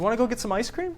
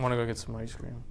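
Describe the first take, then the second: First: The pitch rises at the end. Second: The pitch does not rise at the end. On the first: It is a question. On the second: It is a statement.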